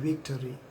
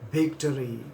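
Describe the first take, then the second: First: The word begins with a V sound. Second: The word begins with a B sound. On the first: "the word victory, V I C T O R Y" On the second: "people will not able to pronounce V, but they pronounce as B. They say victory"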